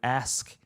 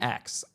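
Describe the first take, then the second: First: The word ends with an 'sk' sound. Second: The word ends with a 'ks' sound. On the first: The speaker calls it right. "I'm not saying the whole word ask" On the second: The speaker calls it wrong. "I'm saying axe"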